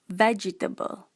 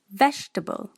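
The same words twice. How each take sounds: First: The word is said with four syllables. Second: The word is said with fewer than four syllables. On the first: The speaker calls it wrong. "Malaysian will put this word as four syllable" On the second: The speaker calls it right. "The correct pronunciation is vegetable"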